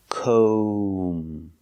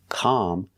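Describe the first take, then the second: First: The vowel is a long O sound. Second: The vowel is a short ah sound. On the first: The speaker calls it right. "Make the long O sound" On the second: The speaker calls it wrong. "We cannot use the short ah sound like hot and stop"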